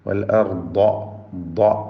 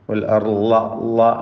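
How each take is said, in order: First: The consonant is a heavy, emphatic D sound. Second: The consonant is an L-like sound at the front teeth. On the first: The speaker calls it right. "അതിൻ്റെ ശബ്ദം അതിന് കൊടുത്തു" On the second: The speaker calls it wrong. "മുൻപല്ലും നാവിൻ്റെ അറ്റവും ചേർന്ന് ചേർത്തുകൊണ്ട് ഉച്ചരിക്കൽ തെറ്റാണ്"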